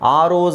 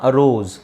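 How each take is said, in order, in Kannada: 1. ಇದು ಉದ್ದ, ಪೂರ್ಣ 'ar' ಸ್ವರದಿಂದ ಶುರುವಾಗುತ್ತೆ. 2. ಇದು ಚಿಕ್ಕ, ದುರ್ಬಲ 'uh' ಸ್ವರದಿಂದ ಶುರುವಾಗುತ್ತೆ. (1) "ಆರೋಸ್ ಅಂತ ಹೇಳಂಗಿಲ್ಲ" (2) "ಇಲ್ಲೇ ಕ್ಲಿಯರ್ ಆಗಿ ನಾನು ಹೇಳ್ತಾ ಇದ್ದೀನಿ"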